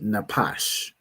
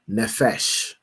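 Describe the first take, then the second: First: The middle consonant is a p sound. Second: The middle consonant is an f sound. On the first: The speaker calls it right. "But this word would be napash" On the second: The speaker calls it wrong. "pronounced his pa as a, as a fa, as an f"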